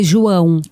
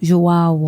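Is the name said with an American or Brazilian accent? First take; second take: Brazilian; American. First: The name is said with a native Brazilian pronunciation. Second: The name is said with an American English pronunciation. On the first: The speaker calls it right. "o nome do meu filho é João" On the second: The speaker calls it wrong. "Mas adulto fala João"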